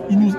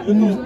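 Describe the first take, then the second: No difference in how they are said.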